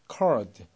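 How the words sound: The R after the vowel is clearly pronounced. "R이 들어가는 게 미국식이고"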